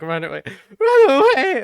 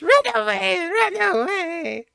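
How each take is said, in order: First: It is said in a voice unlike the goblin's. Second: It is said in the goblin's voice.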